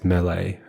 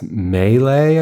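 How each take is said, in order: First: It has a British pronunciation. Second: It has an American pronunciation. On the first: "in the U K, it's melee" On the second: "in American, it's melee"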